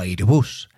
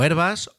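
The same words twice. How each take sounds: First: The name is said the Spanish way, sounding the A. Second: The name is said with an English pronunciation. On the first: "o bien en español pronunciando la primera A" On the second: "O bien lo decimos en inglés"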